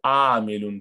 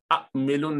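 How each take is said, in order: First: आमिलुन with a long drawn first aa; long first vowel. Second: अमिलुन with a short first a, no lengthening; wrong short vowel. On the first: Teacher shows students the correct reading, long आमिलुन. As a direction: stretch the opening aa in आमिलुन. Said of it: "इसको आमिलुन पढ़ेंगे". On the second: Teacher shows students the reading to avoid, short अमिलुन. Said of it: "ये अमिलुन नहीं पढ़ेंगे". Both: Shown as a demonstration.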